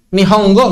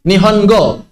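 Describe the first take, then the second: First: "Nihongo" with ng before go, nihong-go; ng mid-word. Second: "Nihongo" with a clear n before go; plain n mid-word. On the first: Teacher testing the middle of a word, ng sound. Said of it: "bisa, nggak bisa juga". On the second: Teacher testing the middle of a word, plain n. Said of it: "Tapi kalau di tengah". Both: Shown as a demonstration.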